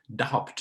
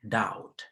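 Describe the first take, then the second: First: A b sound is heard in the word. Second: No b sound is heard in the word. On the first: The speaker calls it wrong. "many people pronounce this word as doubt" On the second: The speaker calls it right. "it is actually pronounced as doubt"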